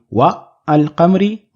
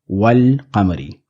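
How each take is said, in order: First: A break separates wa from the article. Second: Wa runs straight into the article without break. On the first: The speaker calls it wrong. "Rather than saying" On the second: The speaker calls it right. "we have"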